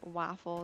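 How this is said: It is said in a Michigan accent. "most people they don't say father or waffle"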